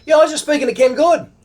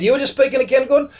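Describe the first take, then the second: First: High, quick insistent reply; excited confirmation. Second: High, rushed disbelieving echo; incredulous question. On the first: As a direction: confirm it eagerly, imitating the stranger. Stranger confirms the astonishing coincidence. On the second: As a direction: query it in retold amazement. Disbelieving echo of stranger's news. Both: Retold or imitated.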